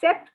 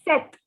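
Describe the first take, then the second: First: A p sound is heard before the t. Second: No p sound is heard before the t. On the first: The speaker calls it wrong. "the P is silent in this word. So instead of saying sept, it is not sept" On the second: The speaker calls it right. "it is set"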